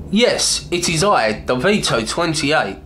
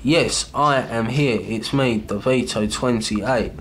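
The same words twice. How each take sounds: First: A hint of a poet reciting; iambic recital. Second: Clearly marked iambic rhythm; slow iambic stress. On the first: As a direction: read aloud high and bright in iambic meter, with "Yes" rising high. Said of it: "what you have to listen for is what I did there". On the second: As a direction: tap out the meter slowly. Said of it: "it's the same as when I say". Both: Shown as a demonstration.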